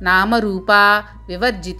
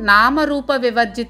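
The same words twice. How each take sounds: First: There is a break before the last word. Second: All the words run together without a break. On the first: The goddess would be called the one who is rejected. The speaker calls it wrong. "విడదీసినట్లు చదవడం జరగవచ్చు. అది తప్పు" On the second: The goddess is beyond name and form. The speaker calls it right. "కలిపి చదవాలి"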